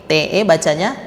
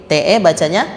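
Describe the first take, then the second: Both takes have the same delivery.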